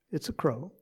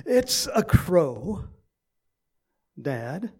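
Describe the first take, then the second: First: Said in the usual way. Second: Mildly exasperated, slow and drawn out; irritated son. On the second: Retold or imitated. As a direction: imitate a son losing patience with his dad. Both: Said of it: "a little bit more irritated".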